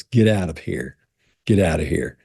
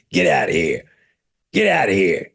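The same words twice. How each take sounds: First: Said in the usual way. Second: Croaky, gruff seal imitation; talking seal voice. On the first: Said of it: "what it would say was". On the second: Imitating the talking seal answering visitors, gruff croak. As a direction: bark it out like the Boston seal. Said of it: "That's what it sounded like".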